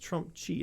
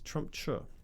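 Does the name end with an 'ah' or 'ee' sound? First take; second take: ee; ah. First: The name ends with an 'ee' sound. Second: The name ends with an 'ah' sound. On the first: The speaker calls it wrong. "I don't think it's Trumpchi" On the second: The speaker calls it right. "It's Trumpcha"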